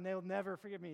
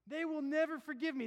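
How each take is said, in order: First: Said in the usual way. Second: Louder, higher cry of fear; preached sinner's dread; louder anguish. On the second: Retold or imitated. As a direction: push the fear out loud. Sinner's fear, loud take.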